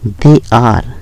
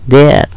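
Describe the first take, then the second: First: Two separate full words are said. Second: It is squeezed into one short syllable. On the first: "फिर है दे आर" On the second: "इसको बोलेंगे देयर"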